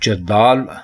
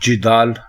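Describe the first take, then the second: First: The first vowel is an 'a' sound. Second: The first vowel is an 'i' sound. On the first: The speaker calls it wrong. "जदाल गलत है" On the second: The speaker calls it right. "जिदाल दुरुस्त है"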